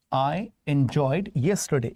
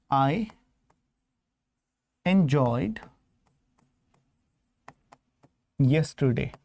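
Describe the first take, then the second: First: Said in the usual way. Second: "I ... enjoyed ... yesterday" spoken word by word with long pauses; slow dictation. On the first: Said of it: "If I say this". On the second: Shown as a demonstration. Teacher to class, spelling out a wrong sentence slowly with long pauses. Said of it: "But if I say".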